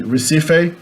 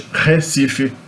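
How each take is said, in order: First: "Recife" with an English R, ending in "fay"; English pronunciation. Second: "Recife" as "heh-SEE-fee"; Portuguese pronunciation. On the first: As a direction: say "Recife" as "reh-SEE-fay". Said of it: "in English". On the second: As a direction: start "Recife" on a rough H, end in "fee". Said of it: "in Portuguese". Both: Shown as a demonstration.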